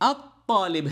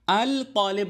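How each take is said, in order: First: The L becomes a doubled T sound. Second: The L is pronounced clearly before the T. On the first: The speaker calls it right. "बल्कि अत तालिब है" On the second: The speaker calls it wrong. "अल तालिब नहीं है"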